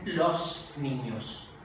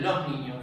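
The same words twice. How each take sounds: First: It is said with a central highland accent. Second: It is said with a Caribbean coastal accent. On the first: "en las zonas centrales... dicen los niños" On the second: "En el Caribe dicen los niños"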